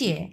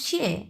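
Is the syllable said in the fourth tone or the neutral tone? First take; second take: neutral; fourth. First: The syllable is said quickly in neutral tone. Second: The syllable carries the fourth tone. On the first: "neutral tone আছে। ওটা তো আরো তাড়াতাড়ি উচ্চারণ করব" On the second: "চার number tone আমরা কিভাবে উচ্চারণ করব? শিয়ে, এইভাবে উচ্চারণ করব।"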